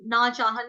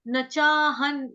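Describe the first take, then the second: First: "ना चाहन" with the vowel in ना drawn long; wrong long ना. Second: "न चाहन" with a short clipped न, not ना. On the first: Teacher showing the student's wrong long ना. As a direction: say "ना चाहन" with a long aa, the error to avoid. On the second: Teacher correcting the student's long ना to short न. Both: Shown as a demonstration. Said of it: "ना चाहन नहीं बोलेंगे".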